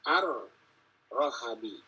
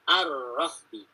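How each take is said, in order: First: An a sound follows the r and the h. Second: An a sound follows the r, then no vowel. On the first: This is the remaining traditions' reading. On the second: This is one recitation tradition's reading. "Hafs dengan fathah dan sukun"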